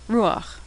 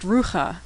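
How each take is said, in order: First: The ah vowel comes before the throat sound. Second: The ah vowel comes after the throat sound. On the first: The speaker calls it right. "the patach is pronounced first" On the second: The speaker calls it wrong. "you'd think this was pronounced rucha"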